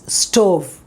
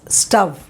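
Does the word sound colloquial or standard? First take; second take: standard; colloquial. First: The vowel is said in the standard way. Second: The vowel is said in a casual, colloquial way. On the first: This is the proper pronunciation. The speaker calls it right. "No, it is stove" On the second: This is how it is said casually at home. The speaker calls it wrong. "don't pronounce this as stove"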